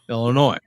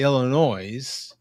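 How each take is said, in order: First: The final S is silent at the end. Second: The final S is sounded at the end. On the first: The speaker calls it right. "You don't put the S on" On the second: The speaker calls it wrong. "Never say Illinois"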